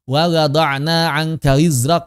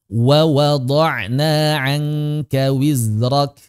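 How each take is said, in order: First: The second wa is rushed with unrounded lips. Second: Both wa sounds are said with rounded lips. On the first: The speaker calls it wrong. "Yang pertamanya mencucu, yang keduanya enggak karena buru-buru" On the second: The speaker calls it right. "tetap disempurnakan mencucu, kedua-duanya harus sama"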